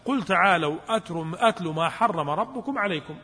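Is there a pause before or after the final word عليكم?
after. There is no pause before the last word. The last word belongs with what precedes it. The speaker calls it right. "المفسرين متفقون على أن عليكم مرتبطة بماذا؟ أتلوا ما حرم"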